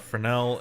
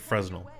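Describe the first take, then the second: First: The word is pronounced the French way. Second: The word is pronounced the anglicized way. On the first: "it's pronounced Fresnel because it's French" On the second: "but you can also pronounce it Fresnel"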